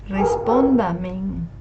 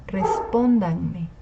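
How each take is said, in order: First: "respóndamen" slowly, with a final n; wrong form, misplaced n. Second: "respóndanme" slowly, with the n before me; correct form. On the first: Teacher showing what not to say, slow "respóndamen" ending in -men. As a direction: draw out "respóndamen", closing on -men. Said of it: "Tampoco se dice respóndamen". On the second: Teacher correcting the mistake, slow "respóndanme" ending in -me. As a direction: draw out "respóndanme" as res-PÓN-dan-me. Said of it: "sino respóndanme". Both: Shown as a demonstration.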